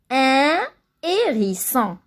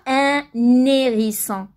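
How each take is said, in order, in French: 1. Aucun son n ne relie un à hérisson. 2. Un son n relie un à hérisson.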